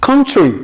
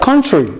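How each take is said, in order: The two takes are said the same way.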